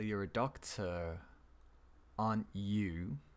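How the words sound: The voice falls at the end of the tag. The speaker is fairly certain and just confirming. "So we're finishing down here"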